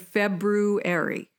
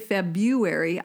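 First: The r after the b is clearly pronounced. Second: The r after the b is left out. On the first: The word is said the way it is spelled. The speaker calls it right. "I say February" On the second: The word is said the common way, unlike its spelling. The speaker calls it wrong. "I don't say February"

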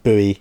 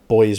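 First: The word is said in an American way. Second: The word is said in a non-American way.

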